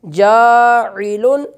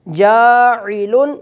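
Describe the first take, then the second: Both takes have the same delivery.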